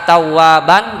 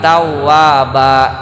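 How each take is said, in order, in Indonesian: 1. Kata ini berakhir dengan bunyi n. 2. Kata ini berakhir dengan vokal a panjang.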